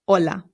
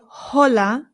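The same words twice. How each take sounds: First: The word begins directly with the O vowel. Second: The word begins with an audible H sound. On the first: The speaker calls it right. "the H in Spanish is always silent" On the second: The speaker calls it wrong. "we don't say hola"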